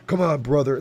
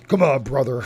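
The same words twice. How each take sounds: First: Louder wrestler rasp; Hulk Hogan voice. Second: Louder raspy wrestler growl; Hulk Hogan voice. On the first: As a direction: another wrestler-style try. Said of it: "The thing about Hulk Hogan". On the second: Streamer doing Hulk Hogan for chat, louder raspy wrestler. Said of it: "Hulk Hogan's voice". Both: Acted.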